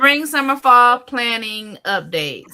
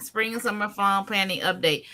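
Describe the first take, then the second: First: Loud, raised title call-out, slowing at the end; high, loud heading with a stretched finish; segment announcement. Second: Said in the usual way. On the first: Real, not acted. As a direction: announce it big, high and drawn out.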